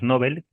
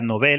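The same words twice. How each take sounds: First: The stress is on the first syllable. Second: The stress is on the second syllable. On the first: "la pronunciación llana, eh, premios Nobel, que sería en sueco" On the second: "se pronuncia Nobel, acentuada en la E"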